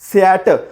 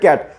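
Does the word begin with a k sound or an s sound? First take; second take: s sound; k sound. First: The word begins with an s sound. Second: The word begins with a k sound. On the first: The speaker calls it wrong. "कॅटला सॅट म्हणता" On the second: The speaker calls it right. "सीचं pronunciation कधी पण काय करायचा? क करायचा"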